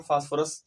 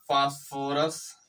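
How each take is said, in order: First: Said in the usual way. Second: phosphorus very slow, each syllable held, rising at the end; slow dictation. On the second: Shown as a demonstration. Teacher telling students to write the name, slow dictation. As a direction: stretch phosphorus out for note-takers.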